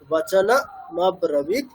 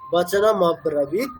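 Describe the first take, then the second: First: The two parts are said separately with a break. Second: The two parts are joined smoothly without a break. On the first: "এই দুটোকে দু তিনবার repeat করে নিয়ে" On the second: "then connect করে বললে"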